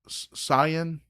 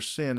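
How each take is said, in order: First: It is said as two syllables, like 'sigh-on'. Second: It is said as one syllable, like 'sin'. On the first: The speaker calls it right. "I think I'm supposed to pronounce that Sion" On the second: The speaker calls it wrong. "is not actually pronounced Sin"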